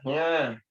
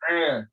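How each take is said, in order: First: The sound begins with a nasal ng. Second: The sound is a plain vowel without nasal. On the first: The speaker calls it wrong. "Tapi dia baca nga. A dan nga itu beda" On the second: The speaker calls it right. "Harusnya baca Alhamdulillahi Rabbil Alamin. A"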